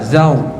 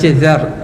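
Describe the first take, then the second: First: The r is said overly heavy, lips rounded. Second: The r is said light and thin. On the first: "terlebih tebal" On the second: "dia baca zar, nipis"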